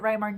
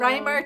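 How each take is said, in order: First: The name does not sound like rhymer. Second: The name sounds like the word rhymer. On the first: "not like the poet" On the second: "to go with the poet"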